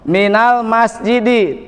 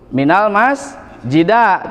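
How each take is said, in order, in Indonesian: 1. Kata terakhir diakhiri dengan vokal i. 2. Kata terakhir diakhiri dengan vokal a. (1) "harus kasroh" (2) "tidak boleh"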